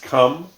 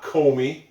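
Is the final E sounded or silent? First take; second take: silent; sounded. First: The word ends on the M sound. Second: The word ends with an extra vowel sound. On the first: The speaker calls it right. "It's come" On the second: The speaker calls it wrong. "That is not comey"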